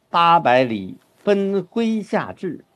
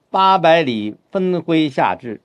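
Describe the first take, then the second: First: 八百里 then 分麾下炙, slow and clear; slow, balanced phrasing of 八百里分麾下炙; right phrasing. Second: 八百里分麾下炙 read word by word, too literal; slow, mistaken literal phrasing of 八百里分麾下炙; wrong phrasing. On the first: Teacher showing the correct reading, slow. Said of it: "那后面有个对仗的句子". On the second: Teacher showing the wrong reading to students, slow. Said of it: "这就麻烦了". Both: Shown as a demonstration.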